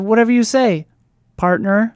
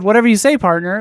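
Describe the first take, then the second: First: There is a pause before the word partner. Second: The phrase runs on without a pause before partner. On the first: The speaker calls it wrong. "they take a little pause right before saying it" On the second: The speaker calls it right. "like that just flows"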